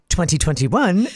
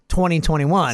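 First: Each syllable of the number is crisply over-articulated. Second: The number is said in a relaxed, ordinary way. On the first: The speaker calls it wrong. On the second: The speaker calls it right.

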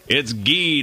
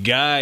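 First: The name is said with an 'ee' vowel. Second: The name is said with an 'eye' vowel. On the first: This is the name's correct pronunciation. The speaker calls it right. "It's Guy, not Guy, you dummy" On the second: This is the name's mistaken pronunciation. The speaker calls it wrong. "like Guy Smiley"

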